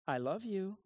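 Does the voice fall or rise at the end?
rise. The voice rises at the end like a question. It asks for the words back. The speaker calls it wrong. "they would do the intonation of a question"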